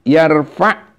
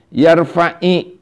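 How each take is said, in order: First: The word ends on a bare consonant. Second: The word ends with a short 'i' vowel. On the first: It is the original form of the word. "asal maknana mah sukun ya teh yarfa'" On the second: It links to the following word with alif lam. "dibaca yarfa'i kasroh"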